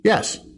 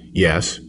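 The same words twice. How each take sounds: First: It is said at a higher pitch. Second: It is said at a lower pitch.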